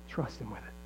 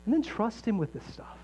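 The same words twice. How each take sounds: First: Soft low repeat. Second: Said in the usual way. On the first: Real, not acted. Pastor to the congregation, softly and low. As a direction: drop the voice lower and much softer. Same urging, repeated much softer and lower.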